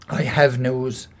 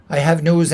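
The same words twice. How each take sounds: First: Slow, grave confession; solemn admission. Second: Louder, pressing the news; urgent insistence. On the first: Husband confessing to his wife, slow and grave. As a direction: admit it slowly and heavily. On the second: Husband insisting to his wife, louder and urgent. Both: Acted.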